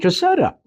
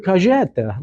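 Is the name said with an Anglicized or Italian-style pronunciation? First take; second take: Anglicized; Italian-style. First: The name is said with an Anglicized pronunciation. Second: The name is said with an Italian-style pronunciation. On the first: This is how the speaker says his own name. The speaker calls it right. "No, I'm Caseta" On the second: Someone else used the ethnic pronunciation. The speaker calls it wrong. "Everybody wants to use their um, their ethnic pronunciations"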